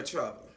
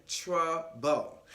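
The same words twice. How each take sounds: First: Said in the usual way. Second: "Trouble" split into two deliberate beats; broken-up emphasis. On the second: Real, not acted. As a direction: spell out "Trouble" syllable by syllable. Word repeated for emphasis.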